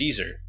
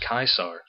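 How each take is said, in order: First: It is said the familiar English way. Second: It is said the Latin way, with a diphthong. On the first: "the anglicized pronunciation, which we're all familiar with" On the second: "classic Latin pronunciation of Caesar, which is Caesar, where you use the diphthong"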